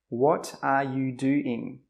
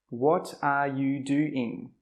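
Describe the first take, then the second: First: Each word is said separately and clearly. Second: Each word is said separately and clearly.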